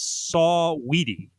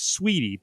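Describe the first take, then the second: First: The name is said with three syllables. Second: The name is said with two syllables. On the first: The speaker calls it right. "but it's Saw Weedy" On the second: The speaker calls it wrong. "I thought it was Sweetie"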